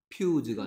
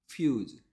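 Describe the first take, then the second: First: It begins with a p sound. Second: It begins with an f sound. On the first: The speaker calls it wrong. "입술이 붙였다 떨어지면 안 돼. 그건 피가 내는 소리야. 퓨즈가 아니고" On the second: The speaker calls it right. "아니고 퓨즈"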